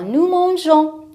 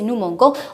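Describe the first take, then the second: First: The g sounds soft, like a j. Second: The g sounds hard, like in go. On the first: The speaker calls it right. "Le E pour prononcer la lettre G, J" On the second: The speaker calls it wrong. "G-O se prononce go, alors comme ça c'est faux"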